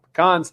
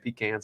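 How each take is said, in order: First: It is said a different, non-local way. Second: It is said the South Georgia way. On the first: It does not match the sender's local usage. "and not pecans" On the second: It matches the sender's local usage. "I'm assuming this is South Georgia, so I'm saying pecans"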